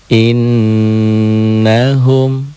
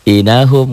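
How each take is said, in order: First: The n is doubled, held and nasalized. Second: The n is single, short and not held. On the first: The speaker calls it right. "In gunnah double ditahan dengung" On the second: The speaker calls it wrong. "Gak ada yang double, gak ada yang ditahan, gak ada yang dengung"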